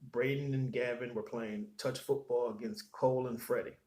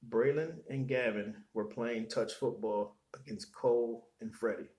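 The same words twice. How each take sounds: First: It is read at a normal speed. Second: It is read more slowly.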